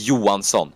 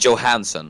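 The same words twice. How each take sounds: First: The name is said with its native pronunciation. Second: The name is said the way English speakers say it. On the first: This is how the name is properly pronounced. "it's pronounced Johansson" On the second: This is how the commentator habitually says the name. "I say Johansson"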